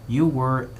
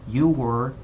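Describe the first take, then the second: The two takes are said the same way.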